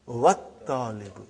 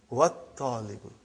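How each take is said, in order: Both takes have the same delivery.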